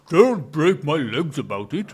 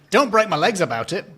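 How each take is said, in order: First: It is said in a put-on imitation voice. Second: It is said in the speaker's normal voice.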